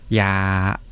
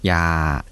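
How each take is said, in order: First: The syllable is said with a level tone. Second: The syllable is said with a low tone. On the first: Medicine. "これを平らにすると" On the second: Don't. "声調は低い声調です"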